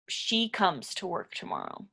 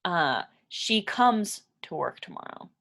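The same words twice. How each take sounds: First: She comes with the S stressed. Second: Said in the usual way. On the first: Shown as a demonstration. Teacher modelling the third-person S for learners, stressing "she". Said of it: "We put the S at the end". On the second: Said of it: "we just have the simple present verb".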